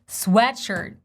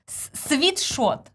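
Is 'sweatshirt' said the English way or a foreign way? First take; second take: English; foreign. First: It is said with an English w and short e. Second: It is said with a foreign, transliterated pronunciation. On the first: The speaker calls it right. "but it's sweatshirt" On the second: The speaker calls it wrong. "in my native language, they didn't transliterated it correctly"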